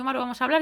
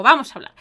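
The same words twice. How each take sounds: First: Said in the usual way. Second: Louder, eager yes; eager loud reply. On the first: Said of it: "me dice". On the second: Retold or imitated. Answering her friend's message, eagerly louder. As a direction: jump at the chance, out loud. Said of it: "yo le digo".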